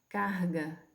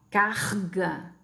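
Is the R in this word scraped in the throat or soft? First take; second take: soft; scraped. First: The R is a soft sound, not scraped. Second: The R scrapes at the back of the throat. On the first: "aqui é um ambiente propício para eu usar esse aqui" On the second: "numa situação velar, né? Raspando na garganta"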